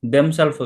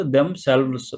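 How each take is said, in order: First: "themself" ending in a singular self, with an f; wrong form themself. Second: "themselves" with the plural ending, selvz; corrected form themselves. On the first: Teacher showing learners the mistaken "themself", ending in plain f. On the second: Teacher correcting the slip to "themselves", ending in vz. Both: Shown as a demonstration. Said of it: "ఇక్కడ themself కాదు".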